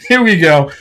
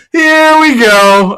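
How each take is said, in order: First: Said in the usual way. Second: "Here we go" stretched slow, high and louder; sing-song it up high, slow and loud; a long, rising announcer-style here we go; drawn-out high here we go. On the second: Acted. Repeats phrase, second drawn out.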